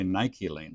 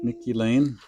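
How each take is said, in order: First: It is said with a British vowel pattern. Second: It is said with an American vowel pattern.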